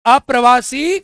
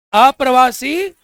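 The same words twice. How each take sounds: First: Said in the usual way. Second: Slow drawn-out word. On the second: Shown as a demonstration. Teacher to class, drawing out अप्रवासी slowly. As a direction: stretch अप्रवासी out slowly, syllable by syllable. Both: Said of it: "जोर से बोलो".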